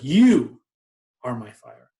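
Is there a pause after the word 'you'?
yes. There is a pause after 'you'.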